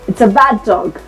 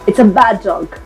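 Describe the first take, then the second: The two takes are said the same way.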